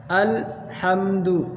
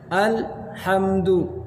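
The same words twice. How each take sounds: The two takes are said the same way.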